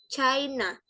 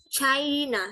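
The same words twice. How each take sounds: The two takes are said the same way.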